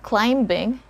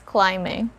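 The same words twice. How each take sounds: First: A b sound is heard before the ending. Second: No b sound is heard before the ending. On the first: The speaker calls it wrong. "So it's not climbing" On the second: The speaker calls it right. "it's climbing"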